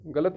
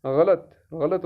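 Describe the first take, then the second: First: गलत with the wrong stress on its middle ल; wrongly doubled or voweled ल in गलत; mispronunciation. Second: गलत with a light, undoubled ल; correct pronunciation. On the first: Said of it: "गलत नहीं है". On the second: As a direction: model गलत without leaning on the ल. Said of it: "ये मुशद्दद नहीं है". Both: Shown as a demonstration.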